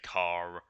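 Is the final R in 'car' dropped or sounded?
sounded. The final R sound is clearly pronounced. "they would say car, ... they enunciate those better"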